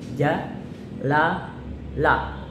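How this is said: Each syllable is separated by a pause. The reader has not memorized it yet. "boleh dijedah"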